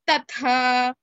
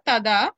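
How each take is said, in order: First: The second consonant is an aspirated th. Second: The second consonant is a plain voiced d. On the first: The speaker calls it right. "the second letter is Mahaprana" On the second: The speaker calls it wrong. "It is not tada"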